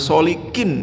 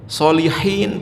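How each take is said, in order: First: The consonant before the last syllable is k. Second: The consonant before the last syllable is h. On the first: The meaning of the name changes. The speaker calls it wrong. "dipanggil solikin" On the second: It means the pious one. The speaker calls it right. "Solihin pakai ha"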